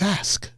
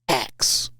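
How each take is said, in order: First: The s sound comes before the k sound. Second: The k sound comes before the s sound. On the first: The speaker calls it right. "He says" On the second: The speaker calls it wrong. "I used to mispronounce words"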